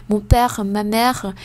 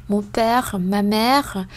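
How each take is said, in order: No difference in how they are said.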